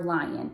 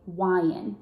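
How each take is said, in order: First: The word is said with a clear L sound. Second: The L sound is replaced by a W sound.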